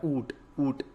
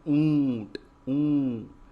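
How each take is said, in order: First: ऊँट with a purely oral oo, no nasal; ऊँट said as "oot"; missing nasal. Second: ऊँट loud and stretched, oo through the nose; ऊँट with a big drawn-out nasal vowel; nasalized vowel. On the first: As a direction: drop the chandrabindu nasal from ऊँट. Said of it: "तो ऊँट नहीं होता". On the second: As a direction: hold the nasal ऊँ long and loud. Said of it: "क्या होता है". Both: Shown as a demonstration.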